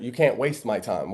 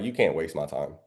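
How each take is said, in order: First: Said in the usual way. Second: Low firm line. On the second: Shown as a demonstration. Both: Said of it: "Me, I say it a little bit different".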